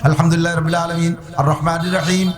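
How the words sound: There is a pause after each verse. It leaves a gap for God to answer. The speaker calls it right. "কিরাত এভাবে কেটে কেটে পড়বো"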